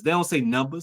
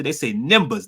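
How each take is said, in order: First: Said in the usual way. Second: "numbers" said as "nimbuhs"; Florida pronunciation. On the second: Shown as a demonstration. Host showing how Florida and Georgia talk, "numbers" as "nimbuhs". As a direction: say "numbers" with a short i and dropped r, Florida-style. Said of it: "in Florida".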